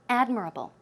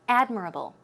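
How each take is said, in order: First: The stress is on the first syllable. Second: The same.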